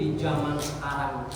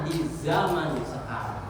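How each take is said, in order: First: The word zaman begins with a j sound. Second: The word zaman begins with a z sound. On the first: The speaker calls it wrong. "kalau ngomong zaman jangan pakai ja" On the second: The speaker calls it right. "yang benar"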